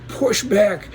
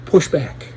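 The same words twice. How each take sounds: First: Emphatic push back. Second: Said in the usual way. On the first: Real, not acted. Rallying viewers to resist, pitched up. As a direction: back pitched much higher.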